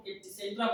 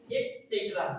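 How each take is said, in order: First: ET CETERA tossed off quickly the common way; wrong pronunciation. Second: ET CETERA slowly, as et-SET-ra; careful falling model of ET CETERA; right pronunciation. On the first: Teacher quoting what we all say, wrong pronunciation. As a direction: show the usual misreading of ET CETERA. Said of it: "It is wrong pronunciation". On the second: Teacher correcting the full form, right pronunciation. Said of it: "the right pronunciation is". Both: Shown as a demonstration.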